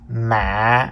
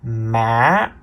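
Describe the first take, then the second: First: The pitch is low with a break. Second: The pitch starts low and rises. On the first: "the low broken tone" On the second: "The fourth tone is the low rising tone"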